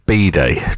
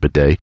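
First: The word is pronounced the British way. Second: The word is pronounced the American way. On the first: The speaker calls it right. "It's a B-day" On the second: The speaker calls it wrong. "because you pronounce it wrong"

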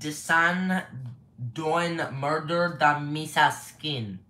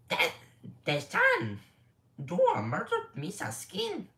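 First: It is said in his normal voice. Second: It is said in a Jar Jar Binks voice.

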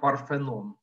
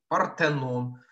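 First: The consonant before the e is an f. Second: The consonant before the e is a t. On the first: The speaker calls it wrong. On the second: The speaker calls it right.

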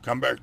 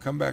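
First: The voice is put on deep and low. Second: The voice is at a normal pitch.

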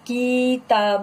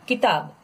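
First: The first vowel is drawn out long. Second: The first vowel is short and quick. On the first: The speaker calls it wrong. "किताब नहीं, wrong" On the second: The speaker calls it right. "Small है, कम time लेना है"

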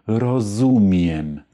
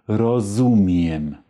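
Both takes have the same delivery.

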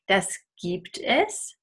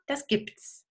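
First: Es is said as its own separate syllable. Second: Es is contracted onto gibt as an s. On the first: The speaker calls it wrong. "But nobody I know says that" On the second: The speaker calls it right. "And we can use a contraction"

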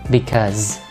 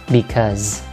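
The two takes are said the same way.

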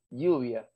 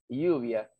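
No difference in how they are said.

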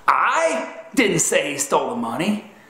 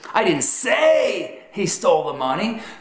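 First: The stress falls on the word 'I'. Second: The stress falls on the word 'say'. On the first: Someone else said he stole the money. "Infers that someone else said he stole the money" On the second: The speaker implied it without saying it. "communicates that you communicated he stole the money in a manner other than verbal"

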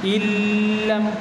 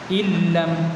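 First: The sound before the L is drawn out long. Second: The sound before the L is kept short. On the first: The speaker calls it wrong. "Bila panjang macam tu salah" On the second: The speaker calls it right. "dia tak panjang"

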